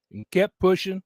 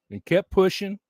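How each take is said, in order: Both takes have the same delivery.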